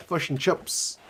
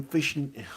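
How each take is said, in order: First: "fish and chips" with Kiwi short i, "fush and chups"; Kiwi vowels. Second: Said in the usual way. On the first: Shown as a demonstration. Jokey Kiwi vowel, accent talk.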